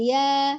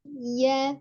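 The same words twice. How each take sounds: First: The ya is pressed hard. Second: The ya is pressed softly and gently. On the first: The speaker calls it wrong. "Jadi bukan ya" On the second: The speaker calls it right. "penekanan dengan lunak, dengan lembut"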